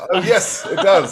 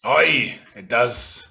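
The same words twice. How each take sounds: First: High, loud posh British captain; posh British accent. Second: Hint of a pirate accent on "Aye". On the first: Acted. Captain confirming the ship has cannons, posh British accent. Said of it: "he says in a posh British accent". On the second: Captain confirming the ship has cannons, pirate accent. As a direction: answer as a gruff-worded pirate accent. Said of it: "doesn't say in a Parish accent".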